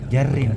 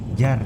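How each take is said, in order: First: The word ends with a vowel and 'n'. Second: The word ends sharply on the 'r'. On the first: The word is read out in full. "Kalau dibaca semua kan jarrin" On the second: The word is read with a silenced ending. "Kalau disukun akhirnya jar"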